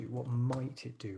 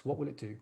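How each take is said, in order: First: Slow, with "might" weighted as the hedge; stress on might. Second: "will" lifted as the key word of the question; stress on will. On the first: Teacher to class, slowly stressing the hedge "might". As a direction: draw out "might" to soften the claim. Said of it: "Remember to avoid these generalizations". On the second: Teacher to class, stressing "will" in a plain question. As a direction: lean on "will" to ask what it does. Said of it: "Or not what will it do". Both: Shown as a demonstration.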